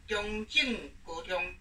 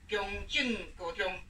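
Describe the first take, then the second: Both takes have the same delivery.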